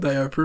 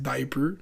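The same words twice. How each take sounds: First: The word is said with a Quebec French pronunciation. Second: The word is said with a standard English pronunciation. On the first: The speaker calls it wrong. "elle va continuer à dire diaper" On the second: The speaker calls it right. "mais c'est diaper"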